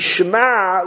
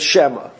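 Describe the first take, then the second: First: The word ends with a guttural throat sound. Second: The word ends with a plain vowel. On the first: "the ayin is, it should be shema" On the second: "rather than shema"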